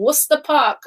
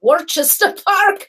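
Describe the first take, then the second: First: "Worcester" announced as WUSS-ter; station's pronunciation. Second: "Worcester" read as WOR-ches-ter, laughing; spelling pronunciation. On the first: Retold or imitated. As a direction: say "Worcester" short, like Wooster. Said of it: "the station says". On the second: Shown as a demonstration. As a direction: sound out "Worcester" with a ch in it. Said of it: "They don't know that it's".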